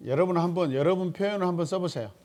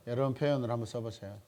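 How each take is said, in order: First: 표현을 stressed, voice higher and louder; louder urging to the class, 표현을 leaned on; emphatic louder call. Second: Said in the usual way. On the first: Real, not acted. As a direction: call out the instruction to the class with force. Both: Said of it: "repeats instruction twice".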